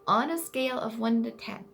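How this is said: It is said in a childlike voice.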